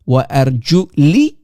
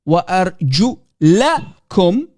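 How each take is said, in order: First: The vowel after the L is 'i'. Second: The vowel after the L is 'a'. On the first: "with the kasra underneath the letter lam" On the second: "with a fatha on top of the lam"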